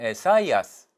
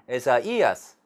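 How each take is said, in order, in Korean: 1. 'ai'는 하나의 이중모음으로 발음해요. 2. 'a'와 'i'는 따로따로 발음해요. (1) "요거를 중모음처럼 발음하면 에사이아스 이렇게 되는데" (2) "디에레시스가 붙었을 경우에는 에사이아스 이제 이렇게 된다"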